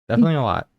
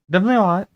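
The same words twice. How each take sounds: First: Said in the usual way. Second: Much higher, teasing squeak; high squeaky voice. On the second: Pretend. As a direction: pop it up high and playful. Third repeat, voice jumps up.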